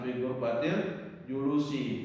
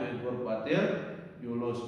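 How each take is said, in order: First: The final word ends with an added vowel. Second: The final word ends on a bare consonant. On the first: The speaker calls it wrong. "bukan ... Karena ribet bacanya" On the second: The speaker calls it right. "Bacanya fi ghurfatil julus"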